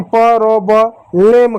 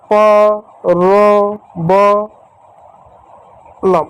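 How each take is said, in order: First: "प, रो, ब, लेम" sounded out, ending in a slow "lem"; wrong pronunciation. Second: "प, रो, ब, लम" drawn out as separate sounds; syllable by syllable. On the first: Teacher showing pupils what not to read, wrong "lem" ending. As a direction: show the mistake: "लेम" with a long e. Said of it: "अब इसका ऐसा नहीं पढ़ोगे". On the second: Teacher sounding out a word for children, syllable by syllable. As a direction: sound out "प, रो, ब, लम" with pauses. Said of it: "इसको ऐसे पढ़ोगे". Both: Shown as a demonstration.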